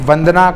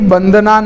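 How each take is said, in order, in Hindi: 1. शब्द v ध्वनि से शुरू होता है। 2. शब्द b ध्वनि से शुरू होता है। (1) "वंदना कहेंगे" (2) "नहीं कहेंगे"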